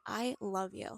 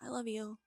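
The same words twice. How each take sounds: First: It is said in a sincere, deliberate tone. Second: It is said in a dismissive, sarcastic tone. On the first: The speaker truly means it. The speaker calls it right. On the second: The speaker does not really mean it. The speaker calls it wrong. "yeah, I love you, whatever"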